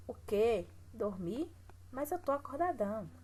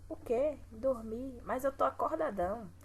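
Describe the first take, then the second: First: "O quê? Dormir?" with rising disbelief, then a protesting "Mas eu tô acordadão"; indignant disbelief. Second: Surprised protest. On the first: Teacher rereads the comic line as a protest, indignant. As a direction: read it like a kid outraged at being sent to bed. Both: Shown as a demonstration. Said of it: "Observe a pontuação".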